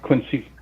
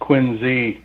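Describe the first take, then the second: First: The middle consonant is an s sound. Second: The middle consonant is a z sound. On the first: The speaker calls it wrong. "not Quincy" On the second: The speaker calls it right. "It's pronounced Quincy with a Z"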